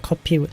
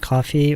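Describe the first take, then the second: First: The word is said with a Korean P sound. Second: The word is said with an English F sound. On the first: The speaker calls it right. "그냥 커피" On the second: The speaker calls it wrong. "do you pronounce F"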